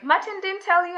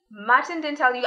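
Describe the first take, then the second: First: High-pitched, retold disbelief; surprised question. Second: Said in the usual way. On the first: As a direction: ask it as a surprised boss, pitched well up. Boss's surprised question, retold again.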